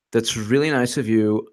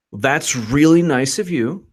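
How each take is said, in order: First: Said in the usual way. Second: Slow, drawn-out mock gratitude; sarcastic. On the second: Real, not acted. Host reacting to Strzok's offer, sarcastic. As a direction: stretch it out with exaggerated appreciation.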